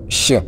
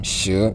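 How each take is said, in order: First: The pitch falls on the syllable. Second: The pitch rises on the syllable. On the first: It means to be. "quand le ton va descendre" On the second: It means ten. "vous allez voir que le ton est monté un peu"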